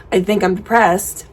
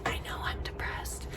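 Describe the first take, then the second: First: Said in the usual way. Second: A sudden unvoiced whisper of a confession. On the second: Admitting to friends she's depressed, whispered. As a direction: drop to a breathy secret whisper. Quoting what she tells people.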